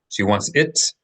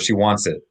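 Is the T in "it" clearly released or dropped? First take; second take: released; dropped. First: The final T is clearly released. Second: The final T is dropped, not released.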